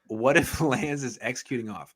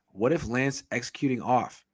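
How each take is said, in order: First: It is read in a put-on Jamaican accent. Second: It is read in the speaker's ordinary accent.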